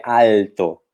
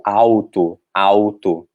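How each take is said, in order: First: Alto with the tongue on the teeth, clear L; French-style L. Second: Alto with the L turned into a U, "auto"; Portuguese pronunciation. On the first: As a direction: alto with a firm L. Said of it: "A gente falaria alto". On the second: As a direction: show alto the Brazilian way. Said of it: "Se for o A L em francês seria al". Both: Shown as a demonstration.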